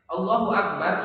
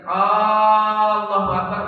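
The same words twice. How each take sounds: First: The first a sound is kept short. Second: The first a sound is drawn out long. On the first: It states that God is great. The speaker calls it right. "kalimat pernyataan yang menyatakan Allah Maha Besar" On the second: It asks whether God is great. The speaker calls it wrong. "Jangan dipanjangkan a-nya"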